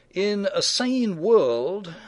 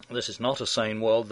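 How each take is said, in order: First: Sane drawn out slow and high; In a sane world said slowly with sane lifted and stretched; stress on sane. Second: Not hit firmly with a lower, flatter tune; This is not a sane world with weight on not; stress on not. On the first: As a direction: lean hard and slow on sane. Setting up sane versus not sane. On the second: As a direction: punch the word not. Contrast with sane world line. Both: Real, not acted.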